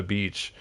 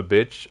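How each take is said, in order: First: "beach" with a long tense ee. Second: "bitch" with a short lax i, like the curse word. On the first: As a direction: stretch the ee in "beach" clearly. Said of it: "I don't know what is a bitch". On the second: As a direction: say "bitch" with short clipped i instead of ee. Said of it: "What, what is a bitch?". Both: Real, not acted.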